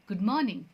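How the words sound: It is said with an English-style pronunciation. The speaker calls it right. "हमें English की pronunciation उठानी होगी"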